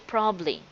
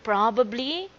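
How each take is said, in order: First: A middle sound is dropped, shortening the word. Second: Every syllable of the word is pronounced fully. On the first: The speaker calls it right. "you try to drop some words. Sound like a native speaker" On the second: The speaker calls it wrong. "Instead of saying probably"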